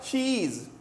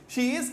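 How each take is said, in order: First: The two words are merged into one syllable. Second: Both words are said fully and separately.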